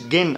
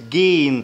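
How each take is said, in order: First: The vowel is short. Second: The vowel is drawn out long. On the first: The speaker calls it wrong. "ما قلتش جين" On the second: The speaker calls it right. "طولته شوية"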